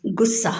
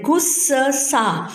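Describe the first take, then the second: First: गुस्सा said short, with one joined स; correct pronunciation. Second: गुस्सा split into गुससा, slowly; slow wrong pronunciation. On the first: Teacher gives the right form to the class, short. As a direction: say गुस्सा quickly and naturally. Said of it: "हम क्या बोलते हैं?". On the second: Teacher shows pupils the wrong form, slow. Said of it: "ये हम कैसे बोल रहे हैं?". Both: Shown as a demonstration.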